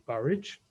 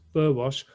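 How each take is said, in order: First: The name is said as 'Burridge'. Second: The name is said the way it is spelled.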